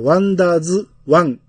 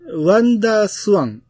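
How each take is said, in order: First: The consonant after 'wandaa' is a voiced z. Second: The consonant after 'wandaa' is an unvoiced s. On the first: The speaker calls it wrong. "ピッチさんの言い方やったら、ワンダーズワンなのか" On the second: The speaker calls it right. "ワンダーなスワンなんですけど"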